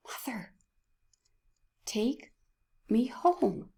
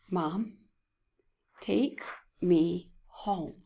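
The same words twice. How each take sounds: First: A faint, worn-out plea trailing away; the sick son begging his mother again, fainter and raspier; raspy whisper. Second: Slow, worn-out rasp, barely voiced; son's hoarse plea to his mother, slow and raspy; raspy whisper. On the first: Retold or imitated. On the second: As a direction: retell a sick child's raspy plea slowly. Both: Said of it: "with a raspy, whispering voice".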